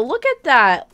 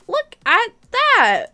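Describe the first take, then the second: First: Said in the usual way. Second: Higher and slow, savoring it; delighted high drawn-out exclaim. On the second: Real, not acted. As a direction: fan thrilled by new players, a slow high squeal. Showing new server players.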